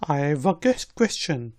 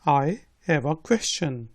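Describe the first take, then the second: First: I have is run together quickly as I've. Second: I have is said as two full words.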